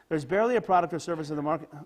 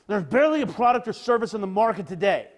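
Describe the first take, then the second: First: It is read in a neutral tone. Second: It is read in an angry tone.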